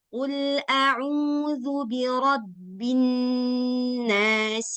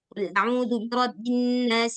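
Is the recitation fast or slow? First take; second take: slow; fast. First: It is recited slowly with long held sounds. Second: It is recited quickly with short held sounds. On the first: "Tapi kalau lambat, maka hitungannya juga lambat" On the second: "misalkan kita baca cepat"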